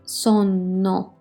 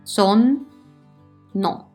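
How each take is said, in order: First: The word flows smoothly with a held n. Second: The word is split into two separate parts. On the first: The speaker calls it right. "I stay in the same position" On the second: The speaker calls it wrong. "I'm not going to say son, no"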